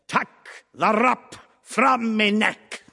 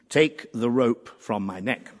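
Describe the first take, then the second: First: The first word has a short 'uh' vowel. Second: The first word has a long 'ay' vowel. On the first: This imitates an actor's idiosyncratic pronunciation. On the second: This is the standard pronunciation.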